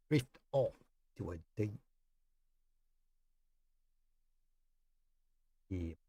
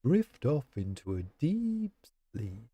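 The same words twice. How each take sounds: First: Soft and fading, a different accent; hushed sleepy drift. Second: Said in the usual way. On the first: Shown as a demonstration. Streamer tests headphones, hushing chat to sleep. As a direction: lull the listener off to sleep. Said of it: "say it in a different accent". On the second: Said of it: "is this relaxing?".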